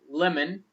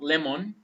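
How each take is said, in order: First: The last vowel is a weak schwa. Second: The last vowel is a full o. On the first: The speaker calls it right. "We're gonna say lemon" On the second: The speaker calls it wrong. "not lemon"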